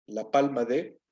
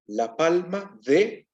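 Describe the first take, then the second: First: Said in the usual way. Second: La palma de, slow, leaning on de with a rise; stress on de. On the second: Shown as a demonstration. Teacher showing students the construct form, slow stress on de. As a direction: draw out la palma de and lift the final de. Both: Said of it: "vean cómo se arregló el asunto".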